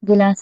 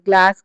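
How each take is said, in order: First: A vowel is inserted between the g and l. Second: The g and l form a cluster without a vowel. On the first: "pronunciation mistake అండి" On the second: "గ్లాస్ అనే దాన్ని"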